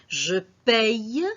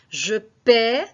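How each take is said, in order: First: The verb ends with a y sound. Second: The verb ends in a plain vowel sound. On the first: "Je paye, P A Y E" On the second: "Je paie, ça veut dire P A I E"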